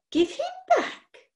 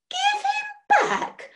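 First: Slow, much higher squeak of outrage; outraged squeak. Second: Very high, slow, drawn-out squeak; the voice shoots up in horror; full outraged squeak. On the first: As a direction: let the voice climb in disbelief. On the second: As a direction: witch at the top of an outraged squeak. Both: Acted. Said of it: "Her voice had risen to an outraged squeak".

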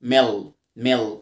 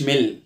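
First: Low "ميل" as "mel" with dark l; correct dark L. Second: "ميل" mispronounced with short i and light l; wrong light L. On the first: Teacher corrects learners, low "ميل" with dark l. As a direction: drop the pitch and darken the l of "ميل". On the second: Teacher shows what was not said, "ميل" with light l. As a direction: say "ميل" as a thin "mil". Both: Shown as a demonstration. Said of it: "ما قلتش ميل".

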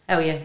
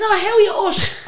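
First: Said in the usual way. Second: High, loud, laughing mock hello; gushing greeting. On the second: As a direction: greet a star with squealed enthusiasm. Retold greeting once she knows it's [name].

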